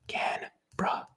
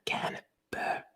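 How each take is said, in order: First: The later vowels are reduced and lazy. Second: The later vowels are said fully and clearly. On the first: The speaker calls it right. "Canberra should be pronounced Canberra" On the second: The speaker calls it wrong. "not Canberra"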